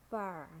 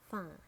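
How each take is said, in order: First: "far" ending in an American R; American "far", curl the final R; American accent. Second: "far" with a British silent R; British "far", said fah; British accent. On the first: Teacher models far for learners, American accent. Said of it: "R in American English". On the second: Teacher models far for learners, British accent. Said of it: "in British English". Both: Shown as a demonstration.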